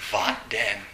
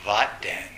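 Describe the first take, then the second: First: "Wat denn?" said low with a falling end; "Wat denn?" as a low, falling echo; falling answer. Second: "Wat denn?" said low with a rising end; "Wat denn?" as a low, rising question. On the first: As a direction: settle "Wat denn?" down firmly. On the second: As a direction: ask "Wat denn?" with an upturn. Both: Retold or imitated. Quoted phrase repeated twice.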